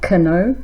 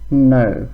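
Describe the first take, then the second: First: The K at the start is pronounced. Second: The K at the start is silent. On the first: The speaker calls it wrong. "Not kno" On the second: The speaker calls it right. "Silent K"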